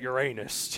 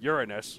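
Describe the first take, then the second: First: The name sounds like 'your anus'. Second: The name sounds like 'urine us'. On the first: It invites jokes about bottoms. "It's just sad" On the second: It invites jokes about pee. "its other pronunciation"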